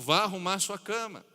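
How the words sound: It is said in a stern, commanding tone. It is an order that must be obeyed. "para um mandamento"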